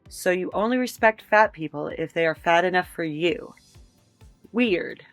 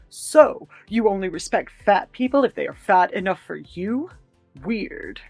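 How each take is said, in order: First: It is read in a neutral tone. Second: It is read in an angry tone.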